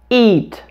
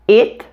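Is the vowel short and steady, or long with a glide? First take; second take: long, gliding; short, steady. First: The vowel is long and glides between two sounds. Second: The vowel is short and steady with no glide. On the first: This is how an American English speaker says it. The speaker calls it right. "I said the second one with a characteristic American English accent" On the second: This is how many non-native speakers say it. The speaker calls it wrong. "the way I often hear non-natives say it"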